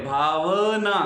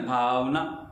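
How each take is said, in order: First: Bhavna with the व pushed hard and loud; teacher shows Bhavna with heavy weight on व; stressed wrong. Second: Said in the usual way. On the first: Shown as a demonstration. Teacher demonstrating the wrong stress to students, loud stress on व. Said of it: "जोर पड़े". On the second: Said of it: "ऐसा नहीं".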